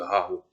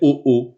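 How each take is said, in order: First: The first vowel is pronounced as a. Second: Both vowels are pronounced as o. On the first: "au lieu de A O" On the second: "si je fais O O"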